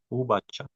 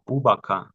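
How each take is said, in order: First: The consonant before the final vowel is a ch. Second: The consonant before the final vowel is a hard k. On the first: The speaker calls it right. "sino ubacha" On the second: The speaker calls it wrong. "no ubaca"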